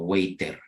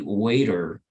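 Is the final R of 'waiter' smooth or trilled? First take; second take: trilled; smooth. First: The final R is trilled with the tongue. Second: The final R is smooth, without tongue vibration. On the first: The speaker calls it wrong. "aquí en español sería como" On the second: The speaker calls it right. "But in English, you will say"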